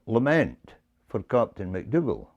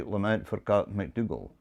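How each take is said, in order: First: "lament" given the accent; stress on lament. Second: Even, unstressed, like a computer; flat computer reading. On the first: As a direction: lean on "lament", let the rest fall away. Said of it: "put the accent on the first word". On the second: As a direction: read it flat with no word stressed. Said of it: "the way a computer would say it". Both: Shown as a demonstration.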